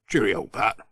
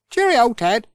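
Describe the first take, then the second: First: Gruff Ted. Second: Higher bright cheerio; cheery Pat. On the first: Ted says goodbye back to Pat, lower voice. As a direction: answer him low and plain. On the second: Pat says goodbye to Ted, high and cheery. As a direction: call it out brightly. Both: Acted.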